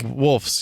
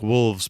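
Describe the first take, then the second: First: The word ends with an f sound. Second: The word ends with a v sound. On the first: This is how the film title is actually said. "that's right, with an F" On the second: This is the grammatically proper plural. "to want to say it properly, like wolves"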